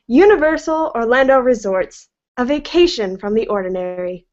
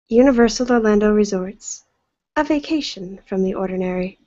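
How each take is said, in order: First: It is read with exaggerated, very excited energy. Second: It is read with moderate, ordinary energy.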